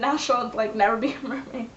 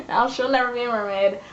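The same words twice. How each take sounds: First: Words giving way to a laugh; amused, about to crack up. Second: Said in the usual way. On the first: Real, not acted. Vlogger explaining the lost mermaidness, cracking up.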